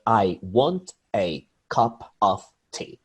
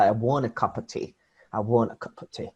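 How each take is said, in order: First: "I want a cup of tea" slow, each word given equal weight; "I, want, a, cup, of, tea", slow and fully pronounced; every word stressed. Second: "I want a cup of tea" flowing, "a" and "of" reduced to uh; connected "I want a cup of tea" with weak schwas; natural linked speech. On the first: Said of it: "They don't stress every word". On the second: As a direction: run "cup of tea" together like "cuppa tea". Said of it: "as natural as if I say". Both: Shown as a demonstration.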